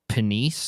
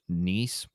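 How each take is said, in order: First: The word begins with a sounded P. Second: The word begins without a P sound. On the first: "but Penice" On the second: "or just Niece, possibly"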